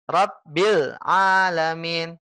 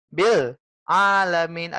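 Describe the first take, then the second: First: Rabbil alamin slow with bil held firm before alamin; stressed bil. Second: Bil alamin said slowly with a break between bil and alamin; pause after bil. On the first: Ustaz demonstrating the sukun on lam, slow. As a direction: lean on bil, then glide into alamin. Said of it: "Begini contohnya". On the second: Ustaz showing the wrong gap after bil. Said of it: "Ada jeda setelah bil ke alamin". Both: Shown as a demonstration.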